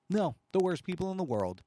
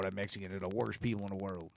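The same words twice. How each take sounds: First: Said in the usual way. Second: Low, rushed mock Southern mumble; Southern accent. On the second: Host imitates a bigoted believer, Southern accent. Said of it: "I'm doing a Southern accent".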